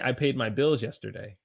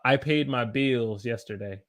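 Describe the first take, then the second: First: The vowel in bills is short. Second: The vowel in bills is held long. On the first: "I didn't say" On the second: "You see how I held it?"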